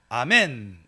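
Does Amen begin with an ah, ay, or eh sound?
ah. The first vowel is 'ah', as in ah-men. "우리 한국어로는 아멘 지금 이러잖아요"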